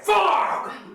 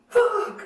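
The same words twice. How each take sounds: First: It is said in an angry tone. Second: It is said in a happy tone.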